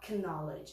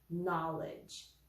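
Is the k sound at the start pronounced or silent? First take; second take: pronounced; silent. First: The initial k sound is pronounced. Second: The initial k sound is silent. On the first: The speaker calls it wrong. "A gente não vai falar knowledge" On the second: The speaker calls it right. "a gente fala knowledge"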